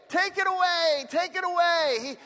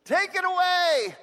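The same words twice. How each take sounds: First: Echoed plea. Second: High, slow, desperate plea to God; Paul crying out to God to remove his thorn, pleading. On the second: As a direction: cry it out like a begging prayer. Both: Retold or imitated. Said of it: "Three times I pleaded with the Lord".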